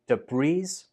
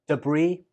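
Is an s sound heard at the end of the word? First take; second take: yes; no. First: An s sound is heard at the end. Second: No s sound is heard at the end. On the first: The speaker calls it wrong. "the S is silent. So don't say debris" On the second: The speaker calls it right. "say debris"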